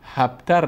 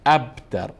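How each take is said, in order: First: The word begins with an h sound. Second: The word begins with a glottal stop. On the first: The speaker calls it wrong. "هبتر نی دخترکای گلم" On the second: The speaker calls it right. "هبتر خوانده نمیشه، ابتر"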